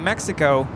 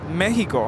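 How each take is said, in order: First: The name is said with an English pronunciation. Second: The name is said with a Spanish pronunciation. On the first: This is how English speakers say it. "We say Mexico" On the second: This is how it is said in the country's language. "but in Spanish it's Mexico"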